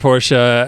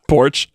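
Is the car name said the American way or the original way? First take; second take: original; American. First: The name is said the original, non-American way. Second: The name is said the American way, like porch. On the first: "I have a very hard time not saying Porsche" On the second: "Just say it wrong"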